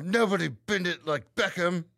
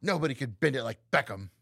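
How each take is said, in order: First: Slow, higher, tight-mouthed actress mimicry; Keira Knightley. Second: Lightly imitated actress, mouth too open; a loose actress impression with an open mouth; Keira Knightley. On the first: Cohost showing off the corrected impression, tight-mouthed actress voice. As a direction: draw it out through a barely opened mouth. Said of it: "Literally, you sound just like her". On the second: Cohost quoting a film title, loose mock impression. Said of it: "You're opening your mouth too fucking much".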